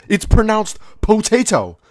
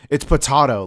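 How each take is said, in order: First: "potato" said slowly as po-TAY-to, pitched high; indignant pronunciation. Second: "potato" said as puh-TAH-to, with a broad AH; corrective pronunciation. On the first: Arguing back at being corrected, "potato" said slowly as po-TAY-to. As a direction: stretch "potato" out with a clear TAY. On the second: Everyone correcting the diner's potato order, "potato" said puh-TAH-to. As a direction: say "potato" with AH in the middle. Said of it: "mispronouncing words". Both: Acted.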